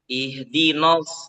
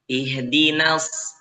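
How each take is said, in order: First: The n syllable is thick and dark. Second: The n syllable is thin and light. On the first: The speaker calls it wrong. "jangan no" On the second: The speaker calls it right. "huruf non itu dibaca tipis"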